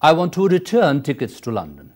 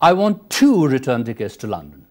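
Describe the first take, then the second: First: The word return carries the strongest stress. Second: The word two carries the strongest stress. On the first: The speaker wants a return ticket, not a single. "In the second, you are stressing return" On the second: The speaker wants two tickets, not one. "In the first, you are stressing two"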